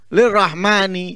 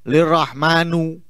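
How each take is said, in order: First: The word ends with an 'i' vowel. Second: The word ends with an 'u' vowel. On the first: The speaker calls it right. "Padahal mestinya lirrahmani" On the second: The speaker calls it wrong. "Diwoco lirrahmanu"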